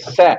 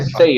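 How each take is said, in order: First: The vowel is a plain open 'eh' sound. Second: The vowel glides, like English 'say'. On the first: The speaker calls it right. "é sé" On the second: The speaker calls it wrong. "mas não é say"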